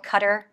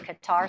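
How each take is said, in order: First: Qatar is said with its native pronunciation. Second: Qatar is said with the common Western pronunciation. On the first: "which I think is actually the correct pronunciation" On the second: "everybody in the Western world calls that country Qatar"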